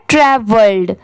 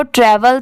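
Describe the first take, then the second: First: ट्रैवल्ड with a d closing after the l; past-form pronunciation. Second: ट्रैवल stopping on the l; base-word pronunciation. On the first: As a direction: model ट्रैवल्ड with the ending sounded. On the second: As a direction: say ट्रैवल without any final d. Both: Shown as a demonstration. Teacher contrasting two similar words for learners, model pronunciation. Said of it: "दोनों में बस इतना ही pronunciation का difference है".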